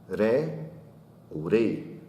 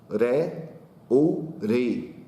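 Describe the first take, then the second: No difference in how they are said.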